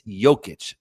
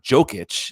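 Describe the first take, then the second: First: The name begins with a soft, Y-like J. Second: The name begins with a hard J as in joke. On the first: The speaker calls it right. "It's a soft J" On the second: The speaker calls it wrong. "not Jokic. You're not itching a joke"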